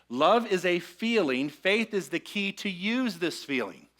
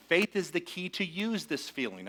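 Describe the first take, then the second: First: Slowed down, each word laid out deliberately; slow, deliberate sermon delivery; slower. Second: Said in the usual way. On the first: Shown as a demonstration. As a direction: unpack it slowly for the room. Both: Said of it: "unpack this one a little slower".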